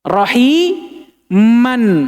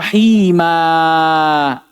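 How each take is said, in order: First: The word ends with an n sound. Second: The word ends with a long a vowel. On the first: The reading continues without stopping. "Fathah tain" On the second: The reader stops on this word. "ketika kita wakaf di atasnya, kita baca rahimah"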